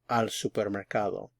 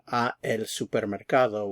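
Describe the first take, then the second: First: The two short words merge into one syllable. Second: The two short words are said separately. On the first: The speaker calls it right. "a and el contract to al" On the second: The speaker calls it wrong. "instead of saying a el supermercado"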